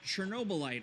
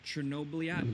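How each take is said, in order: First: The name is said in an English-style way. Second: The name is said in a native-style way. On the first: The speaker calls it wrong. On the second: The speaker calls it right.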